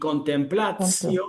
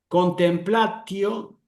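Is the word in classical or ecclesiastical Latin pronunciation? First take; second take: ecclesiastical; classical. First: It is said in ecclesiastical Latin pronunciation. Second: It is said in classical Latin pronunciation.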